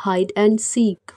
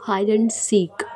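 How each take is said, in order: First: Hide and seek stretched out word by word, very slowly; very slow repeat. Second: Said in the usual way. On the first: Shown as a demonstration. Teacher repeating hide and seek for Hindi learners, very slow. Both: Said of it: "लुका छुपी".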